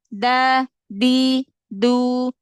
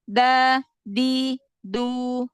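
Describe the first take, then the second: The two takes are said the same way.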